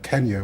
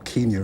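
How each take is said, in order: First: Kenya is said with the usual modern pronunciation. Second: Kenya is said with an old-fashioned pronunciation. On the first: This is the ordinary present-day name. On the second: This is how people with a colonial outlook might still say it.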